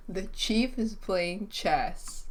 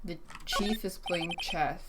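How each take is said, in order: First: "chief" drawn out and stressed, whole line slowed. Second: Said in the usual way. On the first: Shown as a demonstration. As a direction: lean on "chief" and take the line slowly.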